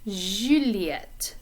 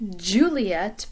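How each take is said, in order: First: It starts with a soft, held 'zh' sound. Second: It starts with a forceful, popping 'j' sound. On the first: The speaker calls it right. "like the sound that comes in the middle of the word pleasure... hold out a little bit longer" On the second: The speaker calls it wrong. "In English, we would say Juliet... a more forceful kind of... sound"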